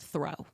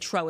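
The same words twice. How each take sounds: First: It is said with a standard accent. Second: It is said with a Caribbean accent. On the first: The speaker calls it right. "it's throw" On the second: The speaker calls it wrong. "she'd say"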